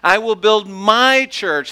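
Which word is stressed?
my. The stress is on "my".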